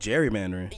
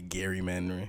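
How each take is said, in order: First: The first sound is a soft J sound. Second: The first sound is a hard G sound. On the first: The speaker calls it right. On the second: The speaker calls it wrong.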